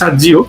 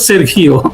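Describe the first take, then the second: First: The middle consonant is a soft English j. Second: The middle consonant is a harsh throaty kh. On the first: This is how Americans might say it. "আমি জানি না ওরা আমেরিকাতে সার্জি বলতে পারে" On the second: This is how it is said in the original language. "ওই ওই ভাষায় এই উচ্চারণটা হলো সেরখিও"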